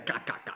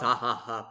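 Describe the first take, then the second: First: Each syllable begins with a k sound. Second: Each syllable begins with an h sound. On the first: "But we always just say ka ka ka" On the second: "it's actually pronounced ha ha ha, but like the X is pronounced as an H"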